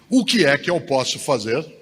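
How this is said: It is a real, eager question.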